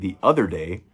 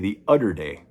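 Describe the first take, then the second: First: The word 'other' has a normal th sound. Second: The word 'other' has a d sound instead. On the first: "instead of saying the other day" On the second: "they say the udder day"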